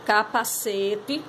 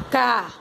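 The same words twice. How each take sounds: First: Capacete said slowly as one joined word; slow, connected capacete; blended whole word. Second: Capacete as "ca... pa... ce... té"; long pauses between all syllables of capacete; each syllable of capacete alone, last a full "té". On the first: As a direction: join "ca-pa-CE-te" without pauses, stretching "ce". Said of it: "Fica desse jeito". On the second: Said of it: "Organize as sílabas". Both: Shown as a demonstration.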